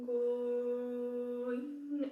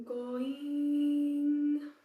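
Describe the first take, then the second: First: "going" sung holding the o, then turning quickly; held first vowel. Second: "going" sung with the second vowel held; wrong diphthong. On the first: Teacher shows the correct diphthong on going. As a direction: stretch the o of "going" and change late. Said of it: "you hold the first vowel". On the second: Teacher shows the common mistake on going. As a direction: hold the e in "going" too early. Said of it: "a lot of people are tempted to say". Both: Shown as a demonstration.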